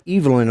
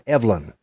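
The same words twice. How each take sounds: First: The name is said the English way. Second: The name is said the American way. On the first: "they pronounce it Evelyn over there" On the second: "Here we call it Evelyn"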